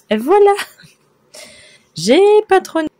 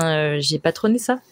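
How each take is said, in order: First: High, loud triumphant cry; excited shout. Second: Said in the usual way. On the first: Real, not acted. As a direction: shout it out with pride. Proud reveal of her work.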